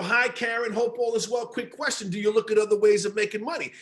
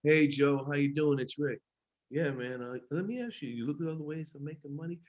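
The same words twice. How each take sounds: First: Bright, friendly phone pitch with energy; upbeat sales call. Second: Low, much softer, bored monotone pitch; flat unexcited caller. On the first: Trainer showing an upbeat phone pitch to a prospect, upbeat. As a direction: sell it like you mean it, upbeat. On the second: Trainer mocking a bored caller who kills the pitch, low and lifeless. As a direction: drone it like you don't care. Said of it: "you can't get on this call and be like". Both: Shown as a demonstration.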